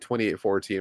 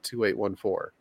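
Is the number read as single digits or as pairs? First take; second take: pairs; single digits. First: The number is read as two two-digit pairs. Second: The number is read one digit at a time. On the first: The speaker calls it wrong. "I always hear people say 2814" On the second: The speaker calls it right. "I say each individual number"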